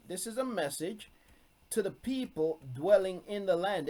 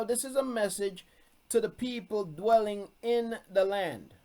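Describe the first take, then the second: First: Said in the usual way. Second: Slightly raised, deliberate stress on "message" and "land"; firm emphasis. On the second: Shown as a demonstration. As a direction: press the point home, each word weighted. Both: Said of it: "That's why I'm emphasizing it".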